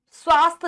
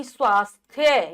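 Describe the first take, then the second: First: स्वास्थ्य cut to 'swaast'; no 'thya' at the end of स्वास्थ्य; dropped y. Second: स्वास्थ्य as 'swaas-thya'; full thya ending. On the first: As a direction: say स्वास्थ्य wrongly, ending on a plain t. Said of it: "स्वास्थ्य नहीं". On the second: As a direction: sound the aspirated th and y in स्वास्थ्य. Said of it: "यह भी आएगा". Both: Shown as a demonstration.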